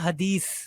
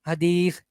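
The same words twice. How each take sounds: First: The last consonant is a plain hissing s. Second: The last consonant has the tongue at the teeth. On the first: The speaker calls it wrong. "हदीस सीन के साथ जो हम प्रोनाउंस करते हैं ना, ये भी नहीं होता, ये भी गलत है" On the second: The speaker calls it right. "जबान की नोक ऊपर वाले दांतों का किनारा लगाएं"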